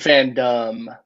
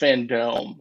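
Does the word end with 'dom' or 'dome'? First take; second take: dom; dome. First: The last syllable sounds like 'dom'. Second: The last syllable sounds like 'dome'. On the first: It is the ordinary word for a community of fans. The speaker calls it wrong. "You said Fandom" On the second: It names fans gathered in a dome. The speaker calls it right. "It's Fandome"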